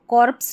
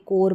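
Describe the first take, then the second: First: It ends with a PS sound. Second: It ends with an R sound. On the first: The speaker calls it wrong. "इसको कॉर्प्स नहीं पढ़ेंगे" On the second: The speaker calls it right. "कोर पढ़ेंगे"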